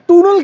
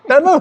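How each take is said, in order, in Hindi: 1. पहला स्वर लंबी 'oo' ध्वनि है। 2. पहला स्वर छोटी 'uh' ध्वनि है। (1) "ये हमेशा बोलेगी गो फ्रॉम द टूनल" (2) "टनल होता है"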